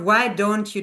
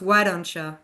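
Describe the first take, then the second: First: The last word is a full 'you'. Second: The last word is reduced to 'ya'. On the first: "instead of" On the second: "it becomes why don't ya"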